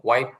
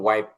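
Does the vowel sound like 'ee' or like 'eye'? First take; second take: eye; eye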